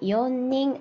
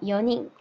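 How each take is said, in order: First: The n sound in the middle is doubled. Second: The n sound in the middle is single. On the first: The speaker calls it wrong. "연닝 아니고" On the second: The speaker calls it right. "발음 주의해야 된다"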